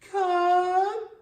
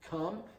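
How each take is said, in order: First: It is said in a high baby voice. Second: It is said in a normal speaking voice.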